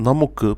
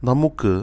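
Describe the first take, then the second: No difference in how they are said.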